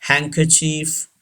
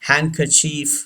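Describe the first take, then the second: First: The final vowel is long and drawn out. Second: The final vowel is long and drawn out.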